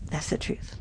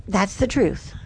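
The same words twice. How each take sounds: First: "That's the truth" dropped to a soft breathy whisper; a hushed aside repeating "That's the truth"; whispered echo. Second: Said in the usual way. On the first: Shown as a demonstration.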